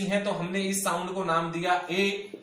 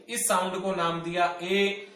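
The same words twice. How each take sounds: First: Said in the usual way. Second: "इस sound को नाम दिया ए" repeated slower, leaning on ए; slow down and stress ए so it sticks; teacher's emphatic restatement of ए. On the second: Shown as a demonstration.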